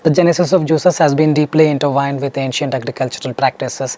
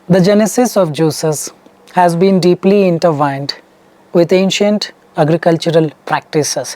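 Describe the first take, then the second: First: The sentence is read at a natural, flowing speed. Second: The sentence is read slowly and deliberately. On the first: The speaker calls it right. "This is the natural flow that you need to get. Something like this" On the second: The speaker calls it wrong. "You speak slow, something like this"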